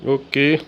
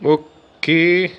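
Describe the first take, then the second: First: Said in the usual way. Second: A long satisfied اوكي; اوكي dragged out, louder; drawn-out okay. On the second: Real, not acted. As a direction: stretch اوكي slowly and louder. Reacting to a goal.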